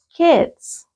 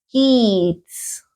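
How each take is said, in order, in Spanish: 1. La vocal es un sonido i corto y relajado. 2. La vocal es un sonido ee largo y tenso. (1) "sino solo kids... pronúnciala como que sin ganas" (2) "Porque no digo kids"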